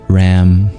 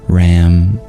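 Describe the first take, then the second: Both takes have the same delivery.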